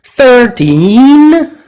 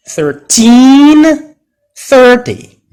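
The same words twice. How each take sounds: First: Put-on "Thirteen" high and loud on teen; stress on TEEN. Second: Put-on "thirteen" stressed on teen, "thirty" on thir, both high and loud; stress contrast. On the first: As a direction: lean hard on the teen of "Thirteen". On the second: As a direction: hit teen, then hit thir. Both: Shown as a demonstration. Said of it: "louder and longer".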